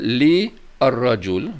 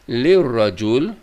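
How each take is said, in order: First: The two words are said as separate words. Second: The two words are run together as one. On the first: "ataupun kita boleh kata li ar-rajul, boleh" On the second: "kita sambung dua ni"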